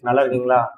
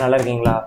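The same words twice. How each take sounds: First: The voice is heard with background noise removed. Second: Tapping and fan noise are heard behind the voice. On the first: The speaker calls it right. "RTX voice on பண்ணி guys" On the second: The speaker calls it wrong. "RTX வாய்ஸை நான் இப்போ of பண்ணிட்டேன்"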